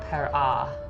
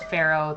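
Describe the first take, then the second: First: The word is said in an older reconstructed form. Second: The word is said the familiar English way. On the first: This is roughly how Egyptians said it. The speaker calls it right. "They probably would have said something closer to Perah" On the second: This is how the title is said today. The speaker calls it wrong. "they wouldn't have said it as Pharaoh"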